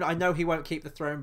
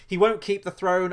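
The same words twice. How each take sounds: First: "know" leaned on, the rest at normal level; calm, knowing "know"; stress on know. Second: "won't" hit loud and high; stress on won't. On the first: Fan conceding to viewers, "know" stressed. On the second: Fan insisting to viewers, "won't" stressed loud. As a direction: punch "won't" with loud certainty. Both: Real, not acted.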